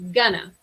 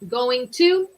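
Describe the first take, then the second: First: The words are blended into one reduced word. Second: Both words are said fully and separately. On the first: "we're combining going to to say gonna" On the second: "So going to"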